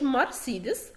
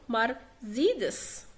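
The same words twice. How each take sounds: First: مرسيدس as "mar-SEE-des"; hissed S in the middle of مرسيدس; wrong S pronunciation. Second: مرسيدس as "mar-ZEE-des"; slow مرسيدس with a buzzing middle Z; correct Z pronunciation. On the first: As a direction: say مرسيدس with S, not Z. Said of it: "ما بقولش مرسيدس، غلط". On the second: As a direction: say مرسيدس with Z, not S. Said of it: "بقول مرسيدس". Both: Shown as a demonstration.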